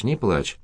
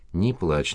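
First: Soft repeated hush, gentle and soothing. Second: Soft, low, soothing mother's voice. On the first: Mother repeating comfort to her sobbing girl, soft and gentle. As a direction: say it again softly to calm her. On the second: Mother calming her crying daughter, soft and soothing. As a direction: hush her gently, softer. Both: A narrator's reading. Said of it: "сказала мать успокаивающе".

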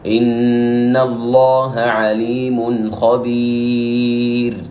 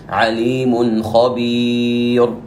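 First: Very slow "خبير" with a thin, light ra; slow chanted "خبير" with a light ra; correct light ra. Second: Slow "خبير" with a thick, emphatic ra; "خبير" with the ra thickened, as a mistake; wrong heavy ra. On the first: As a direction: recite "عليم خبير" with the ra of خبير softened. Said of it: "فنقول". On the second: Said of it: "هذا خطأ". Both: Shown as a demonstration.

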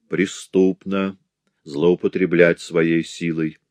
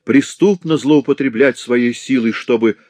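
First: Slow, weighty repetition; grave slow echo; solemn. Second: Loud high protest; raised outraged voice; outcry. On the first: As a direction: intone it solemnly. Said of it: "голос которого прозвучал торжественно". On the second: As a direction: cry out the accusation. Blind man pleads. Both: Acted.

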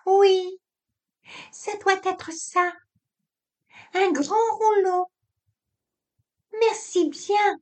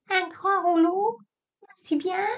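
First: Aiguë, polie, petite voix de téléphone. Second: Imite la petite voix aiguë en minaudant. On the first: Acted. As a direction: une voix fluette et sage pour la concierge. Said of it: "Cette petite voix que tu fais". (petite voix aiguë de téléphone) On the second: Retold or imitated. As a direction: singe sa femme avec une voix aiguë et maniérée. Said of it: "minauda-t-il". (minauderie moqueuse, voix aiguë)

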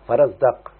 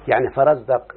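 First: فرزدق said slowly and clearly, each syllable fa-ra-zdaq distinct; careful model pronunciation. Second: Said in the usual way. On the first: Shown as a demonstration. Teacher modelling فرزدق for students, careful clear pronunciation. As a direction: sound out فرزدق clearly for the class to copy. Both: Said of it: "اسمعني كده".

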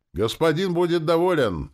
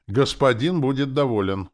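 First: Very high, loud devoted cry; yelling in Valera's intonation. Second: High, loud assurance with conviction; earnest zombie assurance. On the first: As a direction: shout it like an eager servant, pitch soaring. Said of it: "заорала тётка почти с Валериными интонациями". (заорать высоко, с преданным убеждением) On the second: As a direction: assure the master with full conviction. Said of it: "убеждённо просипел зомби Валера". (убеждённо, высоко и громко) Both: A narrator's reading.

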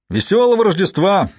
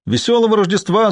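First: High, forced-cheery greeting; strained cheerfulness. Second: High-pitched Christmas hail; shouted greeting. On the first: Traveller greets silent masked riders again, with forced cheer. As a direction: repeat the holiday greeting with laboured brightness. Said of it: "повторил Барт с натужной бодростью". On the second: Traveller greets riders who didn't hear, calling out higher. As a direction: call it out further, pitched well up. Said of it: "закричал он громче". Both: A narrator's reading.

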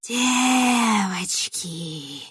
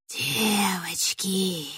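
First: Very slow, drawn-out rustling cry; eerie rustling summons; rustling witch call. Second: Slow, breathy witch whisper; drawn-out eerie whisper. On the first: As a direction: stretch the word like dry leaves calling. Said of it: "шелестела ведьма". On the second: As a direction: hiss the word out slowly, like a witch luring girls. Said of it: "прошептала желтоглазая ведьма". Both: Acted.

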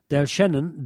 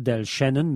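First: Said in the usual way. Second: "Del Shannon" with German Ä vowel; German phonetic spelling. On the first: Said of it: "folgender Aussprachehinweis gegeben". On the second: Shown as a demonstration. Explaining the spelling hint to dealers, German-style pronunciation. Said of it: "mit Ä geschrieben und Doppel-N".

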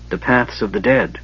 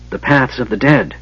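First: Understated, hushed mage voice; lightly voiced mage, a little soft; sudden utterance. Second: Lightly voiced mage, a little raised; slightly lifted, insistent mage voice; mage repeating himself. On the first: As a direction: say it as a quiet, ominous announcement. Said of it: "Raistland said suddenly". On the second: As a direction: repeat it with more emphasis on dead. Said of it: "the mage repeated". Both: A narrator's reading.

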